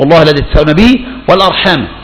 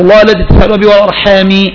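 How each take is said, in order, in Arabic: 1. تنتهي الكلمة الأخيرة بالفتحة. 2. تنتهي الكلمة الأخيرة بالكسرة. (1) "والأرحام هذا معطوف على التقوى" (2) "والأرحام على الجر"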